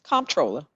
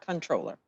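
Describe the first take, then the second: First: The word begins with a clear 'comp' sound. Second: The word begins with a plain 'con' sound. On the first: The speaker calls it right. "it's comptroller. C O M P T" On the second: The speaker calls it wrong. "not controller"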